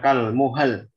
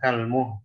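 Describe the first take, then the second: First: An extra vowel is added before the final consonant. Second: The final consonant of the word is dropped. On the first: "Ada imalah tambahan yang nggak pada tempat" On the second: "Jadi hilang huruf akhirnya"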